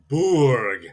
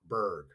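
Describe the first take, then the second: First: The vowel is an 'oo' sound. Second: The vowel is an 'er' sound. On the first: The speaker calls it right. "a castle is a burg" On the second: The speaker calls it wrong. "not a berg"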